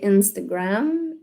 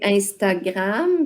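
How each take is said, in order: First: It is pronounced with English sounds. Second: It is pronounced with French sounds. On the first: "puis en anglais, Instagram" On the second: "en français, moi, je dis Instagram"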